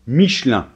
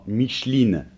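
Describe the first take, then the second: First: The word ends with a nasal vowel, no N. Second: The word ends with a clear N and vowel. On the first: The speaker calls it right. "ça se prononce Michelin" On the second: The speaker calls it wrong. "j'entends très souvent Micheline. Non, non"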